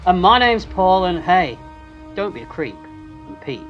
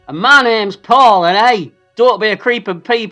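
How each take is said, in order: First: The line is delivered in a creepy manner. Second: The line is delivered in a normal manner. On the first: "you said it in a way that was very creepy" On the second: "I'll go a different way"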